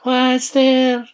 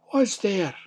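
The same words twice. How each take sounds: First: High, loud fake granny call; put-on old lady voice. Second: Lightly voiced old woman, higher pitch; old granny. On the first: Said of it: "put on his best old lady's voice". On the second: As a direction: call out as an old granny, a little high. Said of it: "An old voice called out". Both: A narrator's reading.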